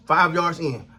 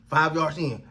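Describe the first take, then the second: No difference in how they are said.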